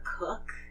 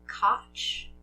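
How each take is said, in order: First: The name sounds like the word cook. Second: The name ends with a different final sound. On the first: "or Cook" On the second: "I've heard it said both ways"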